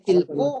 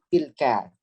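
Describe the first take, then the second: First: The word ends in an u vowel. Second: The word ends in an a vowel. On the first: The speaker calls it wrong. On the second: The speaker calls it right.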